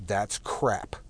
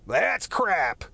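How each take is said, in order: First: Said in the usual way. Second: Higher, louder, sung-out lightly voiced Morrison on crap; [name] lyric impression. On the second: Quoting the live album lyric, a lightly voiced Morrison shout. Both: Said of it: "I do it with [name]'s voice in my head".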